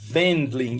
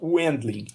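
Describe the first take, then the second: First: The name begins with a V sound. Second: The name begins with a W sound. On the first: The speaker calls it right. "em alemão, a letra W tem som de V. Então, se pronuncia Wendling" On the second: The speaker calls it wrong. "e não Wendling"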